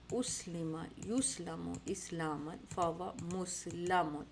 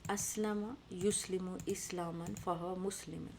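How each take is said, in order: First: Slow drill, اسلم as "uslima", یسلم as "yuslamu"; passive forms recited. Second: Slow drill, اسلم as "aslama", یسلم as "yuslimu"; active forms recited. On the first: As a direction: end مسلم as "muslamun", with a. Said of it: "یہاں مسلم آیا". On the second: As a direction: end مسلم as "muslimun", with ee. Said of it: "active کے جو پورے سیغے تھے". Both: Shown as a demonstration.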